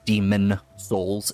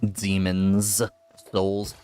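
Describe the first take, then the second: First: There is no s sound after Demon. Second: There is an s sound after Demon. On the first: The speaker calls it wrong. "It's not Demon Souls" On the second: The speaker calls it right. "it's Demons Souls"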